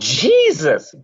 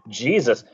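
First: It is said as an exasperated exclamation. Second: It is said plainly, as a name.

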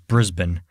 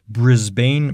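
First: The last syllable is short and reduced. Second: The last syllable is a full 'bane'. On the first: The speaker calls it right. "No, it was Brisbane" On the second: The speaker calls it wrong. "Because at the end is Bane, B-A-N-E. Like you would say Bane"

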